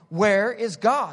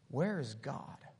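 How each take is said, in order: First: It is said more sternly and louder. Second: It is said sternly at normal volume.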